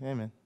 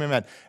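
First: It is said quietly, with little energy. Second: It is said loudly, with lots of energy.

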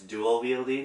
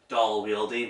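First: The first word does not sound like 'doll'. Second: The first word sounds like 'doll'. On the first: The speaker calls it right. "but it's dual wielding" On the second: The speaker calls it wrong. "I used to call it doll as a child"

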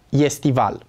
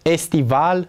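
First: It begins with a y glide before e. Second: It begins with a plain e vowel. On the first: The speaker calls it wrong. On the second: The speaker calls it right.

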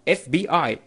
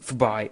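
First: Each letter is said separately. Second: It is run together as one word. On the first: The speaker calls it right. "لا اف بي اي" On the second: The speaker calls it wrong. "ما تقول في باي"

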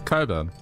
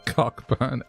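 First: The name is said with no k sound. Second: The name is said with a clear k sound. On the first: The speaker calls it right. "It's Coburn" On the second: The speaker calls it wrong. "Cockburn, ouch"

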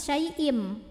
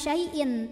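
First: The word ends with an m sound. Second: The word ends with a clear n sound. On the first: The speaker calls it right. "tapi syai'im" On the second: The speaker calls it wrong. "ini bukan syai'in"

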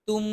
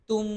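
The two takes are said the same way.

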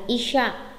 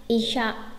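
The two takes are said the same way.

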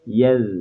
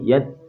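First: The final consonant is soft and flowing. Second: The final consonant is hard, like a d. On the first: The speaker calls it right. "tapi yel" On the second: The speaker calls it wrong. "Nggak boleh yad"

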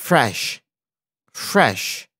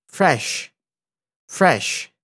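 The two takes are said the same way.

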